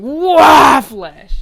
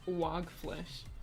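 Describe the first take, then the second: First: The word is shouted suddenly and loudly. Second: The word is said calmly with no extra loudness. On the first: A calm tutor is imagined yelling the name as the label demands. "out of nowhere he's like" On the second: The speaker refuses the label's prompt to yell the name. "I will put absolutely no emphasis on the wag"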